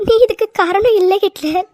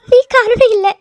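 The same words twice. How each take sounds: First: Teary, gentle நீ காரணம் இல்ல; tearful reassurance. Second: Louder, higher நீ காரணம் இல்ல with நீ hit hard; insistent cry. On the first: Wife to her crying husband, tearful comfort. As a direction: soothe him through your own tears. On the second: Wife to her husband, insisting loudly. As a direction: insist he is not to blame. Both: Acted.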